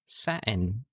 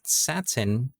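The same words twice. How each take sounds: First: The middle t is a glottal stop. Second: The middle t is a full t sound. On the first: "dinadrop yung T sound and they replace it with an uh sound" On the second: "Not satin"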